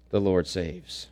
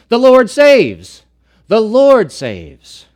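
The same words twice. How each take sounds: First: Soft, low echo; hushed after the shout; quiet repeat. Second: Loud, high, slow proclamation; proclaimed. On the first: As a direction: let it sink in gently. Repeats the phrase after the proclamation. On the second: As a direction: ring it out over the congregation. Preacher proclaims the name's meaning. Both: Real, not acted.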